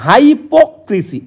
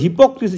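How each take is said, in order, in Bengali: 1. শব্দটি বানান দেখে দেখে, অক্ষর ধরে ধরে উচ্চারণ করা হয়। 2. শব্দটি সাধারণ কথ্য রূপে উচ্চারণ করা হয়। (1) "সঠিক যে প্রনাউন্স করতে হবে এটা কিন্তু নয় এইভাবে মাথায় রাখবে" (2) "যেটা আমরা বলি"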